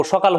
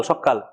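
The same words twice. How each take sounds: First: Said in the usual way. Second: সকাল with a double k, as shokkal; doubled consonant. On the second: Shown as a demonstration. Teacher giving another doubling example, emphatic. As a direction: hold the k in সকাল, then drop. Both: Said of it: "একই রকম".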